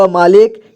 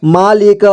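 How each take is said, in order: First: Said in the usual way. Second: मालिक as मा-लि-क; syllable by syllable. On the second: Shown as a demonstration. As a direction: sound out मालिक in three parts. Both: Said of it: "एक ही बार में पढ़ेंगे".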